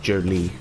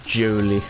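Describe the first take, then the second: First: The name is pronounced in the usual way. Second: The name is pronounced in an odd, unusual way. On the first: This is how it is usually said. "I would normally say Jolie" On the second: It is said oddly just for fun. "I normally don't say Jolie like that. I just thought I'd say it weird for fun"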